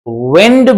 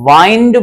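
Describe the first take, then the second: First: The vowel sounds like short 'ih'. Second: The vowel sounds like 'eye'. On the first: "विंड भी पढ़ा जाता है" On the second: "वाइंड भी पढ़ा जाता है"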